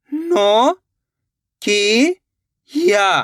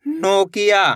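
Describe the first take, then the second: First: "नो ... की ... या", long stretched parts with pauses; syllable by syllable. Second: Said in the usual way. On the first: Shown as a demonstration. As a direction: sound out "नो की या" slowly and separately. ("नो ... की ... या" रुक-रुककर, खींचकर) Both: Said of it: "मिलके बन जाएगा Nokia".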